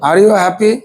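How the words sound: The voice rises strongly at the end. "শেষে আপনি জোর দিবেন"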